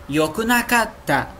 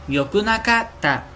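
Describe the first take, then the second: No difference in how they are said.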